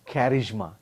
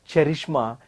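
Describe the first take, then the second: First: The word begins with a k sound. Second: The word begins with a ch sound. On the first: The speaker calls it right. "it is charisma" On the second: The speaker calls it wrong. "it is not cherishma"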